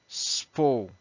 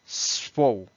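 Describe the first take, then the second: The two takes are said the same way.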